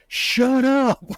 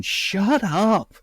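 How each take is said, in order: First: Much higher, squeaked "Shut up." with "up" dropping; incredulous giggly "Shut up."; squealing mock shut up. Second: High, hissed mock "Shut up." with a falling "up"; playful mock rebuke "Shut up."; mock scolding whisper-shout. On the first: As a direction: pitch it way up in disbelief. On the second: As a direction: tease him to pipe down, pitched up. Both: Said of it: "grabbing him by the neck going".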